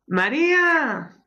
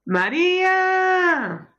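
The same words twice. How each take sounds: First: Calling out. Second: Much higher, long drawn-out yell of her name; shouting down the hall. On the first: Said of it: "llámala desde ahí". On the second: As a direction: holler her name down the corridor so she hears. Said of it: "grítale por el pasillo". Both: Acted.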